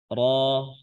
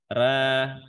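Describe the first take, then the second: First: The letter is said thick, with a darker vowel. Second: The letter is said thin, with a lighter vowel. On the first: "Seperti ro dibaca ro" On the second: "Kalau tipis ra"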